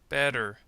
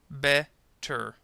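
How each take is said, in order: First: The middle T is a quick D-like flap. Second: The middle T is a clear, stopped T. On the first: "when you use the flap T sound" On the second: "you have to stop the preceding vowel sound"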